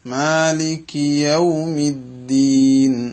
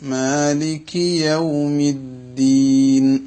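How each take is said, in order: Both takes have the same delivery.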